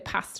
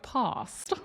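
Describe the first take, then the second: First: It is said without a Southern English accent. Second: It is said with a Southern English accent. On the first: This is how people from the speaker's region say it. The speaker calls it right. "Whereas I say past" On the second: This is how the cloned voice model says it. The speaker calls it wrong. "more like the Southern English accent, which would be like past"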